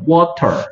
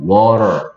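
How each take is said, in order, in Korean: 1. t는 분명한 t 소리로 발음합니다. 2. t는 가벼운 flap 소리로 부드럽게 바뀝니다. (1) "영국 사람들은 water" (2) "근데 미국 사람들은 water"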